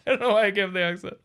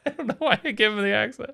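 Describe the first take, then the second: First: Quick repeat. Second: Laughing aside. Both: Real, not acted.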